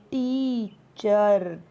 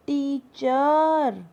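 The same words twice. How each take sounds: First: teacher said very slowly, first vowel held; stress on the vowel. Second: teacher drawn out, first vowel stretched and stressed. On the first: Teacher repeating the word for students, slow stressed demo. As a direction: lean on the ee of teacher. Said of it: "तो word जो यहाँ पे क्या हुआ". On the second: Teacher showing students where the stress falls, slow stressed demo. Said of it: "vowel पे ज़्यादा आया हमारा stress". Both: Shown as a demonstration.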